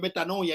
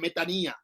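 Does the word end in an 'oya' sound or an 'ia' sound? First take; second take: oya; ia. First: The ending has an 'oya' sound. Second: The ending has a plain 'ia' sound. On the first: The speaker calls it wrong. "La gente dice metanoia y no es metanoia" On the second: The speaker calls it right. "es metanía"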